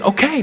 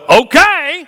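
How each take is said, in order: First: It is said in a plain, neutral tone. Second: It is said in a grudging, annoyed tone. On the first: The speaker is fine with it. "I meant okay. No, it's fine with me. I'm good" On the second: The speaker is displeased. "I'm not saying, well"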